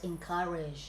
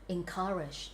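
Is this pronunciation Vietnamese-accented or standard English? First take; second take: standard English; Vietnamese-accented. First: The second syllable is stressed with a schwa. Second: It is said with a Vietnamese-style pronunciation. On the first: The speaker calls it right. "nhấn âm hai và cái này là âm ơ" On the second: The speaker calls it wrong. "Vitlish người ta đọc là encourage"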